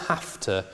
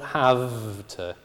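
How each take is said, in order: First: The consonant in have is a voiceless f. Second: The consonant in have is a voiced v. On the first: The speaker calls it right. "it's always have to" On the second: The speaker calls it wrong. "not have to"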